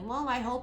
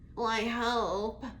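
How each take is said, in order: First: The voice sounds higher, brighter and confident. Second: The voice sounds low, flat and gloomy. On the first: The speaker believes it will happen. The speaker calls it right. "It almost ups the octaves" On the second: The speaker doubts it will happen. The speaker calls it wrong. "in this tone that's so negative"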